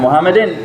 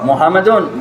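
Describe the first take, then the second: First: The word ends in in. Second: The word ends in un.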